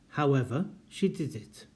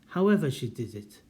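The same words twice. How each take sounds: First: There is a break after 'however'. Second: 'However' runs straight on without a break. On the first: It means but she did it. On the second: It means no matter how she did it.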